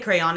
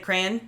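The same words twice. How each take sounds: First: The word has two separate vowel sounds. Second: The word has a single vowel sound. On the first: "I say crayon as well" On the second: "lots of Americans who say crayon"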